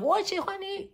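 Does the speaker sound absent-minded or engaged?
engaged. It is said with attention and feeling. The speaker truly means it.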